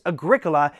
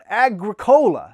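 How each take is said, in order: First: It does not end like the drink 'cola'. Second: It sounds like 'agri' plus the drink 'cola'. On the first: The speaker calls it right. "No, it's Agricola" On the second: The speaker calls it wrong. "it's kind of like agriculture, ... and the word cola, it's like Coke"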